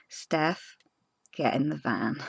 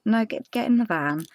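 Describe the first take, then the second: First: Softer, steady retold calm instruction; calm, firm. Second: Said in the usual way. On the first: Partner calmly telling panicking Steph to get in. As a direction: settle her down gently. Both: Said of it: "he very calmly said to me".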